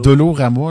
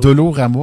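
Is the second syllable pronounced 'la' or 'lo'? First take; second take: lo; lo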